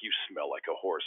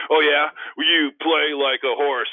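First: Said in the usual way. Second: Loud, high, slow comeback; big hammed-up retort; retold trash-talk comeback. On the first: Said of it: "he's like". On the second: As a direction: fire back a clumsy taunt with full volume. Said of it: "I am a horrible trash talker".

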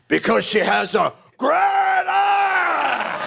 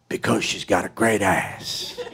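First: Much higher, exploding shout on ass; Pacino-style scream. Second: Said in the usual way. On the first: Retold or imitated. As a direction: blow up at the end of the line. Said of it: "it came out". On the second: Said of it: "his line is".

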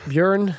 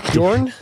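First: "Björn" said with a rounded ö vowel. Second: "Bjorn" said with an open o vowel. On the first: Unsure co-host trying out the name, "Björn" with an ö. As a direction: say "Björn" as byeurn, with an ö. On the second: Unsure co-host trying out the name, "Bjorn" with an o. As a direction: say "Bjorn" as byorn, with an o. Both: Shown as a demonstration.

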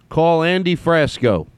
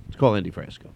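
First: Slow, high, deliberate phone command. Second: Said in the usual way. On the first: Real, not acted. Host telling his phone to call a friend, slow raised command. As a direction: spell it out slowly for the phone to catch.

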